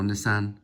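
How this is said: It is said with a British pronunciation. "I'm from the U K, so I'm naturally going to say"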